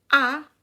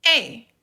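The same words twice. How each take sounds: First: A said as Spanish "ah"; Spanish letter name. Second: E said as English "ay", punched; a louder, clear "ay" for E; English letter name. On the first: Teacher contrasts the alphabets for learners, Spanish letter A as "ah". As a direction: open "ah" for the letter A. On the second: Teacher models English for learners, E as English "ay". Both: Shown as a demonstration. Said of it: "pero en inglés decimos".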